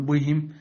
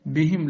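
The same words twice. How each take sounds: First: "بهم" with rounded, w-like thick b; wrongly heavy ba. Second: "بهم" with thin, clear i after b; light ba. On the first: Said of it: "لا تقل". (تفخيم باء "بهم") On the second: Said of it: "كذلك". (ترقيق باء "بهم") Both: Shown as a demonstration.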